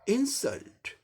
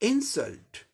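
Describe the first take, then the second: The two takes are said the same way.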